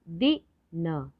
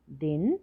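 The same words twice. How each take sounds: First: दिन split slowly as दि, न; letter by letter. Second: Said in the usual way. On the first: Shown as a demonstration. Teacher spelling दिन for learners, letter by letter. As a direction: sound out दिन in separate pieces. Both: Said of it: "तो शब्द पढ़ते हैं".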